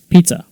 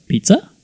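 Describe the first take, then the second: First: PIZZA as a firm, level statement; decided, flat answer on PIZZA; flat intonation. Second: PIZZA rising high, as a suggestion; loud, high, questioning PIZZA; high intonation. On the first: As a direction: state PIZZA loudly with no questioning lift. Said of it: "this time flat". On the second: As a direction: offer PIZZA as a tentative question. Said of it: "B is using a high intonation". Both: Shown as a demonstration.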